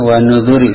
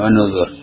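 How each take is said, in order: First: The word ends with a final i vowel. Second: The word ends on the consonant r. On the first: The speaker calls it right. "bacanya wa nuzuri saja baca" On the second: The speaker calls it wrong. "Jangan wa nuzur"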